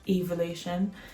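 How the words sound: The word is said in a British way. "the actual British way of saying it is evolution"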